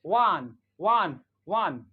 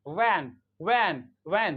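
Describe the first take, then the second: First: "वन" with a long, open British 'ah' vowel; "वन", broad 'ah', firmly stressed; British English pronunciation. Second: "वैन" with an open American 'ae' vowel; "वैन", front open vowel, firmly stressed; American English pronunciation. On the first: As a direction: say "वन" the British way, drawn-out back 'aa'. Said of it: "British English में". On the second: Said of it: "American English में". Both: Shown as a demonstration.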